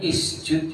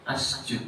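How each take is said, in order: First: The word begins with an i vowel. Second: The word begins with an a vowel. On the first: "Enggak boleh isjud" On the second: "enggak boleh asjud"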